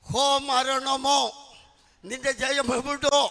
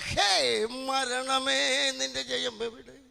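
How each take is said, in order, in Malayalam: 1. പ്രധാന വാക്കുകൾ 'o' സ്വരത്തിൽ അവസാനിക്കുന്നു. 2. പ്രധാന വാക്കുകൾ 'e' സ്വരത്തിൽ അവസാനിക്കുന്നു. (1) "ഇനി മേലാൽ ഹോ മരണമോ നിന്റെ ജയം എവിടോ എന്നൊന്നും പറയരുത്" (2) "അപ്പൊ നന്നായി വായിക്കണം"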